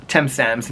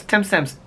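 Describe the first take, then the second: First: Said in the usual way. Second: Higher-pitched mock rude girl; imitated rude girl. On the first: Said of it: "And she goes". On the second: Quoting the rude girl from the movie, imitated higher. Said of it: "the girl goes".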